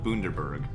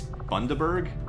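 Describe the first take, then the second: First: It is said with an American pronunciation. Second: It is said with an Australian pronunciation. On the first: This is how the speaker usually says it. The speaker calls it wrong. "I always call it" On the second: This is how Australians say it. The speaker calls it right. "I think it's"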